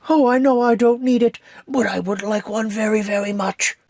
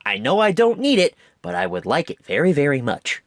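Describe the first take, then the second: First: Sing-song little bear, a lot higher; Pooh Bear voice. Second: Said in the usual way. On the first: Retold or imitated. Reviewer quoting Pooh asking for a red balloon, high Pooh voice. Quoting Pooh's line from the movie. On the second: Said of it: "That's, like, my entire mentality".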